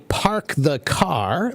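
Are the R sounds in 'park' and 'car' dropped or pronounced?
pronounced. The R sounds are clearly pronounced. "They don't say park the car"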